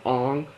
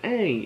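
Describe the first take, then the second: First: The name is said with the movie's pronunciation. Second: The name is said with the show's pronunciation. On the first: This is how the film adaptation says it. The speaker calls it wrong. "it's not" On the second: This is how the original series says it. The speaker calls it right. "This is how it's pronounced in the show"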